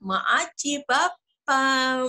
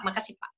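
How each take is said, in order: First: It is said in a cute, lisping baby voice. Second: It is said in a plain, ordinary voice. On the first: The speaker is seeking attention. The speaker calls it wrong. "mencari perhatian dengan suara kita" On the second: The speaker is simply being polite. The speaker calls it right. "Biasa saja"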